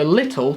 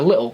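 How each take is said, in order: First: The middle T sound is clearly pronounced. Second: The middle T sound is dropped. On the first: "we miss out the T's" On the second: "we miss out the T's, so little turns into little"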